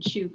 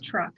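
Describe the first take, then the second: First: The name begins with a 'ch' sound. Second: The name begins with a 'tr' sound. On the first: This is the islands' own current name. "now it's properly said Chuuk" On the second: This is the older colonial and wartime name. "they said it as Truk"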